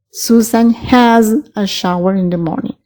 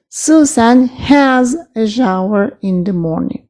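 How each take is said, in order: First: Said in the usual way. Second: Has said slowly and clearly, the key word; teacher slows down to stress has in Susan has a shower. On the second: Shown as a demonstration. Teacher modelling has for the class, slow and clear. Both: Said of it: "se las recuerdo nuevamente".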